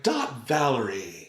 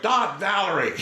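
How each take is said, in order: First: Polite sign-off. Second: Laughing, higher, louder call of "Dot Valerie"; mock yell. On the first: Retold or imitated. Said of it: "they wanted him to be like". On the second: Son goofing on his mother's show tag, laughing mock yell. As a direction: shout "Dot Valerie" out like a prank. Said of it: "he was just like".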